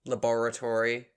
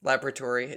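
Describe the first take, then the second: First: "Laboratory" stressed on BOR; second-syllable stress. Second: "Laboratory" stressed on LAB; first-syllable stress. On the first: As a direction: say "Laboratory" as luh-BOR-uh-tory. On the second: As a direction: say "Laboratory" as LAB-ruh-tory. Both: Shown as a demonstration. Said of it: "do you say laboratory or laboratory".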